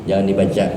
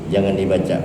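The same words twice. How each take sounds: Both takes have the same delivery.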